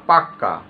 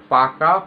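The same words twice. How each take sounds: First: পাক্কা with a long doubled kk; doubled consonant. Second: Said in the usual way. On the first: Shown as a demonstration. Teacher demonstrating doubled consonant to students, পাক্কা with long kk. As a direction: hold the kk in পাক্কা. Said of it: "তখন তাকে বলা হয় দ্বিত্ব ব্যঞ্জন". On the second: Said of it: "যেমন".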